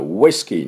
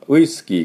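First: It starts with a rounded, held-back 'wh' sound. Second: It starts with a flat, unrounded Japanese-style sound. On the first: The speaker calls it right. "口をちょっとすぼまして、うわ、って言うと綺麗なウイスキーって音になります" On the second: The speaker calls it wrong. "ウイスキーからウイスキーにするには"

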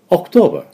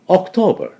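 No difference in how they are said.

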